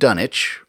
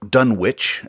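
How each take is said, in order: First: The W in the middle is silent. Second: The W in the middle is pronounced. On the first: The speaker calls it right. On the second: The speaker calls it wrong.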